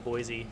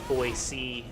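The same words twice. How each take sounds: First: The second syllable starts with a Z sound. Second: The second syllable starts with an S sound. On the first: This is how outsiders usually say it. "as opposed to Boise" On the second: This is how locals want it said. "try to get people to say Boise"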